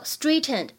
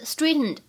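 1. "t" 音爆破很重、很用力。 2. "t" 音是通过鼻腔轻轻释放的。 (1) "如果你读成straightened 就不是很好听了" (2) "这里呢会有一个鼻腔爆破"

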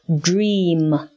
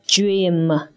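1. 这个单词开头是 'dr' 的音。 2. 这个单词开头是 'j' 的音。

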